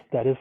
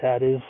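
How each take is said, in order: Both takes have the same delivery.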